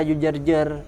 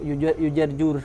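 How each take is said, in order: First: The vowel before the final r is a. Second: The vowel before the final r is u. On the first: "jangan dibaca" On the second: "jangan dibaca"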